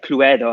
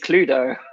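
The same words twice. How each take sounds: First: The word has an Italian pronunciation. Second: The word has an English pronunciation. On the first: The speaker calls it wrong. "I heard it s- pronounced like Cluedo" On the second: The speaker calls it right. "are you joking? It's Cluedo"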